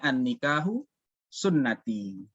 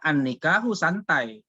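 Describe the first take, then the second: First: The last word is pronounced sunnati. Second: The last word is pronounced santai. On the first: Marriage is part of the prophet's way. The speaker calls it right. "yang sebenarnya kan bacanya" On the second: Marriage is relaxed. The speaker calls it wrong. "dia bisa baca salah"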